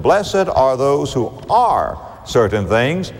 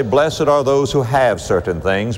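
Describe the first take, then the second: First: Are lifted and drawn out, slower; stress on are. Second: Said in the usual way. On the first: Shown as a demonstration. Preacher correcting the quote, stressing are. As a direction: lean on the word are. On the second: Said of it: "Jesus doesn't say".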